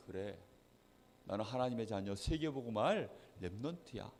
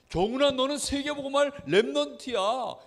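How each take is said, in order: First: Soft, low murmur to oneself; quiet self-affirmation. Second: Put-on high, raised declaration over a child; name the child's calling with conviction; proclaiming encouragement. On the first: Acted. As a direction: take it to heart, softly and low. Child takes words to heart. (낮고 조용하게 혼잣말로 다짐하듯) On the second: Blessing spoken over a child. (높고 힘 있게 선포하는 말투)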